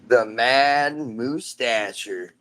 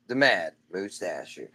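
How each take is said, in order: First: Slow drawn-out announcer intro; lightly hammed-up showman intro. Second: Said in the usual way. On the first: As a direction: stretch "The Mad Moustacher" out like a ring announcer. Announcing son's silly character name.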